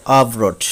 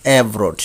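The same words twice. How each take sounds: First: আভরোড opened with "a"; corrected pronunciation. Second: অ্যাভরোড opened with "ae"; common mispronunciation. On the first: Teacher modelling for learners, আভরোড starting with "a". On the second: Teacher showing the common way, অ্যাভরোড starting with "ae". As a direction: say অ্যাভরোড as "eb-rot". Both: Shown as a demonstration. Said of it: "আমরা বলে থাকি".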